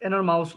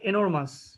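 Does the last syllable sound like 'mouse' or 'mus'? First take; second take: mouse; mus. First: The last syllable sounds like 'mouse'. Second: The last syllable sounds like 'mus'. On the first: The speaker calls it wrong. "এনরমাউস না" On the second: The speaker calls it right.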